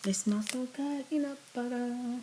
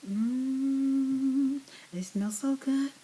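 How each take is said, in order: First: Said in the usual way. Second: Delighted savoring. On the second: Real, not acted. Savoring peanut butter smell.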